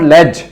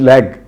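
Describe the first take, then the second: First: The word ends with a j sound. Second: The word ends with a hard g sound. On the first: The speaker calls it wrong. "This is not लेज" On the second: The speaker calls it right. "This is लेग"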